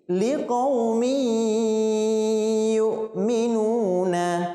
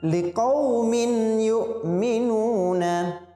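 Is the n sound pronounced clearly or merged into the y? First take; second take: merged; clear. First: The n is merged into the following y. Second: The n is sounded clearly before the y. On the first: The speaker calls it right. "Tanwin harus kita masukkan ke huruf ya" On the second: The speaker calls it wrong. "Tidak boleh kita membacanya"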